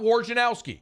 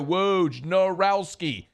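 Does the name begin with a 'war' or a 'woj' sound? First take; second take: war; woj. First: The name begins with a war sound. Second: The name begins with a woj sound. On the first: The speaker calls it wrong. "It's not W A R J A N O W S K I" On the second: The speaker calls it right. "It's phonetically spelled W O J N A R O W S K I"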